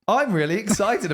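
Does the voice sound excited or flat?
excited. The voice sounds lively and excited.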